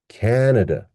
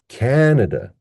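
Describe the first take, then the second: First: The last two vowels are weak and reduced. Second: The same.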